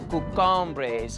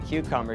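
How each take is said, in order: First: It is said in a high, cute voice. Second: It is said in a plain, normal voice. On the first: "she would say cucumbres ... really kind of high, really cute" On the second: "She wouldn't say cucumbers"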